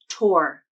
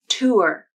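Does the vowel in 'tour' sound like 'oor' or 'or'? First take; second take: or; oor. First: The vowel sounds like 'or', as in 'door'. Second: The vowel sounds like 'oor', as in 'poor'. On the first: "use the or vowel, so it sounds like tour" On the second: "uses the ur R-colored vowel"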